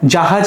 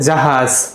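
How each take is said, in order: First: The word ends with a plain j sound. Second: The word ends with a z sound. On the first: The speaker calls it wrong. "জাহাজ না বলে" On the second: The speaker calls it right. "বলে জাহাজ"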